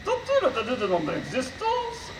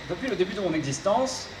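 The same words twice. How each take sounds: First: High robot voice with garbled consonants. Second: Said in the usual way. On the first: Acted. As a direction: mangle the consonants like a glitchy robot. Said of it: "souffre d'une pathologie vocale". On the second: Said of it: "je serai son interprète".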